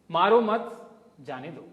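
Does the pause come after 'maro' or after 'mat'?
after mat. The pause comes after the word mat. The speaker is calm and forgiving. "if I'm a nice guy and I meditate, I would say"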